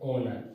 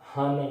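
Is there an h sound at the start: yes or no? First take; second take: no; yes. First: The word begins with a vowel, no h. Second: The word begins with an h sound. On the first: The speaker calls it right. "H जो है वो silent है इसलिए आप ओनर पढ़ें" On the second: The speaker calls it wrong. "हानर ना पड़े"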